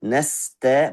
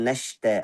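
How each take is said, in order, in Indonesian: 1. Bunyinya s biasa. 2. Bunyinya sh. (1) "Sin itu dari ujung lidah" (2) "suka tukar sin dengan shin"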